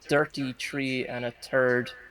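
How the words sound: It is said in an Irish accent.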